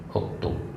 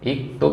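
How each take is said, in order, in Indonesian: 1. Kata ini dimulai dengan vokal 'u'. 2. Kata ini dimulai dengan vokal 'i'. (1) "hamzahnya juga pakai dom dhamma" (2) "Iktub nggak sesuai"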